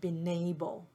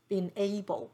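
First: The n links smoothly into the a. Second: The n and the a are said separately.

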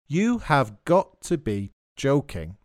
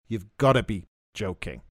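First: Each word is said fully, without contraction. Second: The words are contracted and run together. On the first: "You have got to be joking is pronounced" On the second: "it's contracted in British English too"

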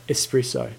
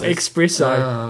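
First: The word begins with an 'es' sound. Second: The word begins with an 'ex' sound. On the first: The speaker calls it right. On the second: The speaker calls it wrong. "Not espresso. ... There's no X in there"

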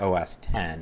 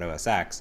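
First: The last part is said as 'ten'. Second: The last part is said as 'ex'. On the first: The speaker calls it right. "That's how you pronounce it" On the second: The speaker calls it wrong. "not OS X"

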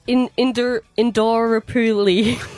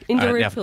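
First: The word is said at a slower pace. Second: The word is said at a faster pace.

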